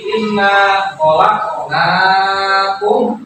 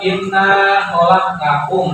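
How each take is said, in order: First: The vowel is drawn out long. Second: The vowel is said short, not drawn out. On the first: The speaker calls it right. "tapi ... Jadi panjangin aja" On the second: The speaker calls it wrong. "jadi bukan"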